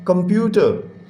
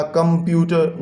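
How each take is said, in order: First: computer as one smooth word, no breaks; fluent, joined-up computer; read in flow. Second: computer chopped into कं-प्यू-टर; halting, separated beats on computer; wrongly broken reading. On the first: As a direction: run the syllables of computer together. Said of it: "हमने flow में पढ़ना है". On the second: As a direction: show how not to read computer, syllable by syllable. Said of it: "no बच्चे". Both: Shown as a demonstration.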